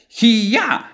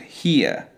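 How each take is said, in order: First: The ending is loud and exaggerated. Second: The ending is a soft, quiet schwa. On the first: The speaker calls it wrong. "You sound like a martial artist fighting" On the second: The speaker calls it right. "we want a more quiet sound"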